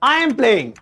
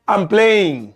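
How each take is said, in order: First: The words 'I am' are said separately. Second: The words 'I am' are joined as 'I'm'.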